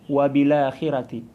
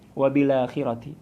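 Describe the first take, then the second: No difference in how they are said.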